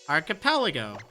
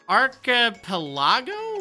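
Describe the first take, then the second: First: The word is said with easy confidence. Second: The word is said with puzzled uncertainty. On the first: The word poses no problem now. "okay, this is no problem" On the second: The word was baffling back then. "Like, what? Huh? What?"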